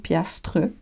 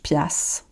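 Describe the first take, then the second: First: The word ends with a full 'tre' sound. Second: The word ends in 'ss' with no 'tre'. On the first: The speaker calls it wrong. "ça s'écrit piastre" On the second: The speaker calls it right. "Mais on prononce piasse"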